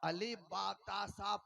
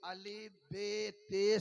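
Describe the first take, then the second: First: The letter names end in an 'a' vowel. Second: The letter names end in an 'e' vowel. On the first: "Ali बातासा पढ़ने को तफहीम कहते हैं" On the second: "Ali बेते से पढ़ने को इमाला कहते हैं"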